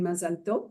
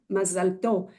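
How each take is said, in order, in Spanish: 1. La consonante final del nombre se pronuncia. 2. La consonante final del nombre se omite.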